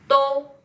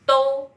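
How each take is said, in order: Both takes have the same delivery.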